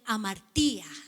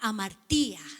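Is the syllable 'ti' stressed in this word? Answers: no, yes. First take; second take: yes; yes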